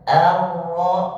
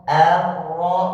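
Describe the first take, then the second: The two takes are said the same way.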